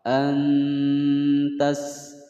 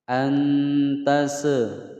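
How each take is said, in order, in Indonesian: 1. Huruf s di akhir berakhir dengan bersih tanpa memantul. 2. Huruf s di akhir memantul dengan tambahan vokal. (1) "dibaca jelas, tidak boleh ditawaludkan atau dipantulkan" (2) "nah itu salah ya"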